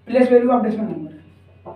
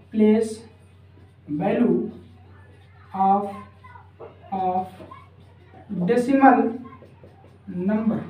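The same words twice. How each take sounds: First: Said in the usual way. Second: One word at a time, long pauses between; word-by-word dictation. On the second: Real, not acted. Teacher giving students the decimal heading to write, word-by-word dictation.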